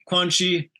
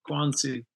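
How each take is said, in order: First: The middle consonant is a 'ch' sound. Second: The middle consonant is an 's' sound. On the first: The speaker calls it wrong. "you pronounced it the Italian way" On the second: The speaker calls it right. "we say Quancy"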